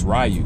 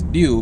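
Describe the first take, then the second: First: The name is said with American English pronunciation. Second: The name is said with Japanese pronunciation. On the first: "it's Ryu in America" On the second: "that's the actual pronunciation in Japanese"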